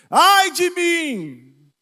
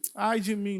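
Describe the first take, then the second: First: It is said as a desperate cry. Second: It is said calmly and mildly.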